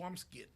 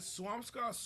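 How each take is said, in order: First: The final syllable sounds like 'skit'. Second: The final syllable sounds like 'scot'. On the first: "Is it Swampscott or Swampskit?" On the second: "Is it Swampscott or Swampskit?"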